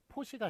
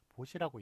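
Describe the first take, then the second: First: The word begins with an aspirated P sound. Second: The word begins with a soft B sound. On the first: The speaker calls it wrong. "포시가 아니라" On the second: The speaker calls it right. "보라고 보시라고 있는 것을 맞게끔"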